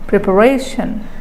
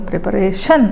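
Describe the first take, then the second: First: The stress is on the second-last syllable. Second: The stress is on the last syllable. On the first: "if you put stress on the penultimate syllable" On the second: "If you give stress on the last syllable"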